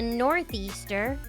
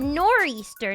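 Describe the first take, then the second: First: The 'th' sound is kept: north-easter. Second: The 'th' sound is dropped: nor-easter. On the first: The speaker calls it wrong. "not a northeaster" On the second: The speaker calls it right. "Nor'easter is the correct way to say its name"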